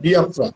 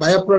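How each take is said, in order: First: The first syllable sounds like 'bee'. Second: The first syllable sounds like 'bah'. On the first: The speaker calls it right. "উচ্চারণটা বিয়াফ্রা" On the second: The speaker calls it wrong. "আসলে বায়াফ্রা না"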